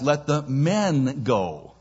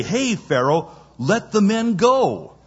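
First: "men" drawn out and singled out; slow, weighting "men" over "go"; stress on MEN. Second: Urgent raised-voice demand, "go" emphasized; stress on GO. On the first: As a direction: lean on "men" as the key word. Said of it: "Pharaoh evidently heard it as". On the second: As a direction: call out, landing hard on "go". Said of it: "these guys were saying to Pharaoh". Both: Shown as a demonstration.

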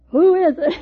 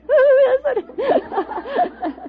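First: Brave call. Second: High, slow, shaky call through laughter; a scared woman trying to sound brave; quavering bravest voice. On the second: Woman calling out to an intruder at midnight, mock brave quaver. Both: Retold or imitated. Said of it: "My bravest voice was".

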